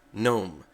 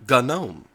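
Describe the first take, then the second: First: "gnome" with a silent g, NOME; correct gnome. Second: "gnome" with a spoken g, guh-NOME; wrong gnome. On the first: Following the project's own videos, NOME. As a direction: say "gnome" like the garden gnome. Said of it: "It is pronounced gnome". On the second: Quoting commentators' annoying version, guh-NOME. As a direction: say "gnome" with the g sounded. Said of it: "who call it gnome". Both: Shown as a demonstration.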